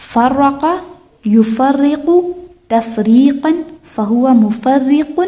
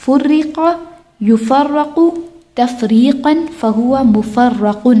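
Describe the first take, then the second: First: "فرقہ" as farraqa, "مفرق" as mufarriqun; active forms. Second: "فرق" as furriqa, "مفرق" as mufarraqun; passive forms. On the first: Teacher practises active line, "فرقہ" as farraqa, paused between words. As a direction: recite word by word, "یفرق" as yufarriqu. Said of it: "فرقہ past ٹینس،". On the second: Teacher practises passive line, "فرق" as furriqa, paused between words. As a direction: recite word by word, "یفرق" as yufarraqu. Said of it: "اسی طرح فرقہ". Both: Shown as a demonstration.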